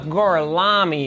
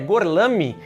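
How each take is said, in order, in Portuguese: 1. O nome é dito com sotaque americano. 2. O nome é dito com sotaque italiano. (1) "Ele fala do jeito mais americano possível" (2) "o nome dele, que é Gorlami"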